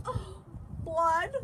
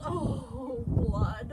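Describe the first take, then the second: First: High-pitched yelp from a mother; yelled. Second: Yelled. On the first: Mother sees her son's finger, high yell. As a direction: cry out high, louder on the last word. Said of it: "Loretta's mother yelled". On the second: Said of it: "Loretta's father yelled". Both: A narrator's reading.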